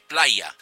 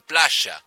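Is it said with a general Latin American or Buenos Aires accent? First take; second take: general; Buenos Aires. First: It is said in a non-Buenos Aires accent. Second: It is said in a Buenos Aires accent.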